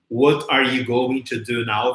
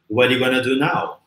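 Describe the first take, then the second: First: Going to is said in full, slowly. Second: Going to is reduced to gonna, quickly.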